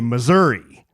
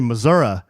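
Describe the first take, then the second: First: The name ends with a long 'ee' sound. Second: The name ends with a short 'uh' sound. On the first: This is how locals say it. The speaker calls it right. "we say Missouri with a long E" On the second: This is how outsiders say it. The speaker calls it wrong. "I guess some people say Missouri, but we judge them"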